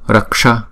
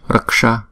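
Both takes have the same delivery.

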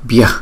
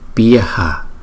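First: The word is said fast with the ending clipped. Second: The word is said slowly with a clear final vowel. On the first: "thì chúng ta đọc nhanh là bih bih" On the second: "chúng ta đọc chậm nó sẽ thành là bhyaha"

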